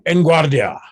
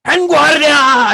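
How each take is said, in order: First: Said in the usual way. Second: High, loud, drawn-out battle command; drill shout. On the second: Acted. Shouted trigger words to trainee hanging on a rope, drill shout. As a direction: bellow it slowly at full force. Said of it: "And you shout".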